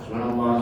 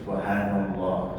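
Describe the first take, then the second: First: The phrase is said quickly and hurriedly. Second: The phrase is said slowly and unhurriedly. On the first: The prayer is rushed through. "kalau nak kencang wah" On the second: The prayer is savoured and enjoyed. "Kan dinikmati, kan enak sebenarnya tu kan"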